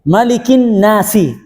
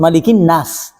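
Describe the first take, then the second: First: The last word ends with an added vowel. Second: The last word ends on a consonant. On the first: The speaker calls it wrong. "Tidak boleh" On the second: The speaker calls it right. "harus malikin nas"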